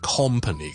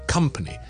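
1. 第一个音节听起来像 'com'。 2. 第一个音节听起来像 'come'。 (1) "就唔会变成company 嘅" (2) "company 系come"

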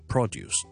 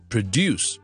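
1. 重音在第一个音节上。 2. 重音在第二个音节上。

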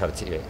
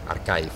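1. Se pronuncia con sonidos españoles. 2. Se pronuncia con sonidos ingleses.

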